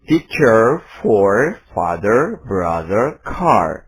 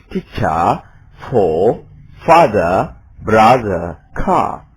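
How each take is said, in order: First: American accent, R sounded at word ends; American English. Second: British accent, no R sounds, louder on father and brother; British pronunciation demo; British English. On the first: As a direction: say teacher, father, car the American way with the R. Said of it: "Saya akan mengucapkan". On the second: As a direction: drop every R: teacha, fatha, brotha. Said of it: "R-nya tidak ada". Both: Shown as a demonstration.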